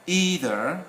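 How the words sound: It is said with the American pronunciation. "Either in America"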